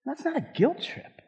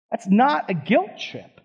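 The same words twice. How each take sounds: First: Softer, higher, gently reassuring; soft, gentle first take. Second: "not" landed firmly, slower and fuller; stress on not. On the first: Pastor gently tells the congregation it isn't guilt, soft and reassuring. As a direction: ease it in softly, no pressure. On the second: Pastor repeats firmly that this is no guilt trip, stressing not. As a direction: press "not" with conviction. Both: Shown as a demonstration. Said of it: "said twice".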